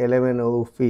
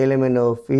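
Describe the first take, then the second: No difference in how they are said.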